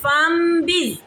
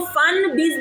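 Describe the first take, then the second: First: An m sound is heard before the b. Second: An n sound is heard before the b. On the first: The speaker calls it right. "हमने इसको पढ़ना है बिल्कुल फम बिज" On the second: The speaker calls it wrong. "हमने इसको फन बिज नहीं पढ़ना"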